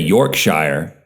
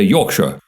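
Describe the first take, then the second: First: The ending is a full 'shire' sound. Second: The ending is a reduced 'shore' sound. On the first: The speaker calls it wrong. "in England, they don't say Yorkshire" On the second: The speaker calls it right. "They say Yorkshire. ... they always say shore"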